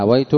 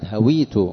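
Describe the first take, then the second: First: هويت said hawaytu, with an ay sound; fatha on the waw. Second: هويت said hawītu, long i after the w; kasra on the waw. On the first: Teacher contrasts the verb for falling, هويت as hawaytu. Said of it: "أما هويت سقطت". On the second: Teacher corrects the verse for students, هويت as hawītu. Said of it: "بكسر الواو". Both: Shown as a demonstration.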